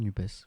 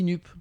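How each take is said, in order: First: The final letters are sounded at the end. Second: The word ends without the final consonant sound.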